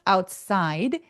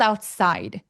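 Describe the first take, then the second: First: The pitch dips and then rises at the end. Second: The pitch drops sharply at the end. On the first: The sentence continues. "중간이면 outside 해서 내려갔다 올라가시면 자연스러워요" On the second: The sentence is finished. "하면 끝났죠. side. 뚝 떨어지기"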